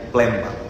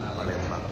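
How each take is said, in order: First: The first vowel is dropped. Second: The first vowel is kept. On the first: This is how local people say it. The speaker calls it right. "orang Palembang menyebutnya Plembang" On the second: This is not how local people say it. The speaker calls it wrong. "bukan Palembang"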